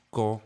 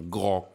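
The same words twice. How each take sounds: First: 高 with a crisp unvoiced g, like k; 高 said with a clean voiceless g and no buzz; unvoiced gao. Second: 高 with a buzzing voiced g; 高 said with a voiced g, vocal cords humming from the start; voiced gao. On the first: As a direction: say 高 with a voiceless initial. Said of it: "高是清的". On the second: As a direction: say 高 with a voiced initial. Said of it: "高就是浊的". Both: Shown as a demonstration.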